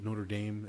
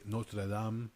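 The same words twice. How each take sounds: First: It is said in a plain, unaccented way. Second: It is said with a foreign accent. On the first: Listeners think of something other than the cathedral. "everybody calls it Notre Dame" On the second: Listeners think of the cathedral. "because I said it with an accent"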